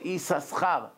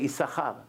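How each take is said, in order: First: The s sound is pronounced twice, as two sounds. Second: The s sound is pronounced only once. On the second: "Sfaradim, no, one chin is silent. They just say Issachar"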